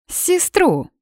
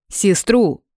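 First: Very high incredulous cry of сестру. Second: Said in the usual way. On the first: Acted. Blonde doubting the brother, incredulous shriek.

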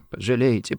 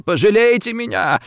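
First: Soft, weak begging; tearful plea. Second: High, wailing plea; sobbing plea. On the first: Rossetti begs the gunman for pity, tearfully soft. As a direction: start the plea small and quiet. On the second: Rossetti begs the gunman for pity, high and tearful. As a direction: beg tearfully, pitch leaping up. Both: A narrator's reading. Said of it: "плакал, всхлипывая Рассетти".

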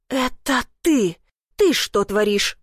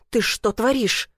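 First: Slow, a touch of an angry growl. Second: Said in the usual way. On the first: Acted. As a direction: growl it back slowly in anger. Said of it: "прорычала я".

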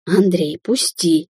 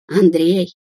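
First: «Андрей, пусти!» лёгким шипением; прошипи, дёргая дверь; прошипела. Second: Позови «Андрей!» хриплым голосом; хрипло окликни; хриплый зов. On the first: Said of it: "прошипела девушка". (слегка шипящий голос) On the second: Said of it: "хриплым голосом позвала она". (хриплым голосом зовёт Андрея) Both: A narrator's reading.

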